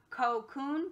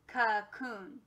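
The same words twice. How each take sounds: First: The first vowel is a full 'oh' sound. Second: The first vowel is a weak 'uh' sound. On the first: "instead of it being O" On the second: "a schwa sign over"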